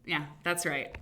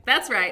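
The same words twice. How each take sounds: First: Said in the usual way. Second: That's right said louder and higher with glee; excited repeat. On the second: Real, not acted. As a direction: punch that's right with delight. Confirming Hannah on show.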